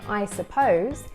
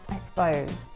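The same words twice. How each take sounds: First: Suppose is said in full with two syllables. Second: Suppose is shortened to s'pose. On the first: "instead of saying I suppose" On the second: "He shortens it to s'pose"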